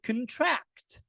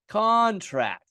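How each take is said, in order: First: The stress is on the last syllable. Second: The stress is on the first syllable.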